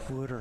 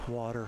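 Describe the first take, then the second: First: It is said in a Philadelphia accent. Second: It is said in a general American accent. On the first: "It's Wooder" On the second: "You're not from Philly"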